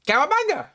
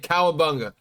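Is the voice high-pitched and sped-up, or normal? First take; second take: high-pitched; normal. First: It is said high-pitched and sped up. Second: It is said in a normal voice. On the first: This is how the toy actually sounded. "Like it plays like an Alvin and the Chipmunk, like a fast forward V H S tape" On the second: This is how the toy was meant to sound. "it's supposed to say"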